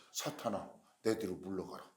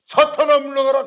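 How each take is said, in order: First: Low, soft command; subdued rebuke. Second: High, very loud command; shouted rebuke. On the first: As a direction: rebuke quietly, in a lowered voice. First, subdued take of rebuke. (낮고 조용하게 꾸짖는 목소리) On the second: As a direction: cast out the devil at full shout. Acted sudden rebuke of Peter. (높고 크게 호통치는 목소리) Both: Acted.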